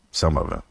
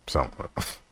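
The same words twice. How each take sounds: First: Said in the usual way. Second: Much softer Some of it, almost under breath; hushed repeat. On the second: Shown as a demonstration. Joking to viewers about data, hushed aside. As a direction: drop it to a hush. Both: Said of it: "repeated quieter".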